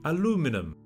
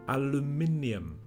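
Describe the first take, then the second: First: It is said with the American pronunciation. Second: It is said with the British pronunciation. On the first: "in American they say aluminum" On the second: "The British also say aluminium"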